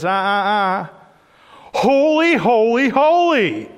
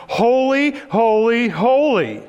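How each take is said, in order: First: Much higher and louder, topping the first cry; outdoing shout. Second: High, loud ringing cry of praise; seraph shouting. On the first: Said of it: "another one looks over ... and says". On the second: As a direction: call it out loud like an angel. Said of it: "one of them starts shouting". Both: Acted.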